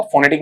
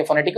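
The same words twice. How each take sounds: First: फोनेटिक with a full "fo"; फोनेटिक beginning "fo-"; wrong first vowel. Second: फोनेटिक said "fuh-NET-ik"; फोनेटिक with a weak schwa start; correct weak vowel. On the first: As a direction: say फोनेटिक with a rounded o at the start. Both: Shown as a demonstration. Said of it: "फोनेटिक नहीं पढ़ेंगे".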